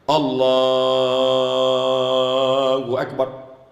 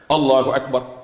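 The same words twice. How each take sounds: First: It is drawn out long. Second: It is said short and quick.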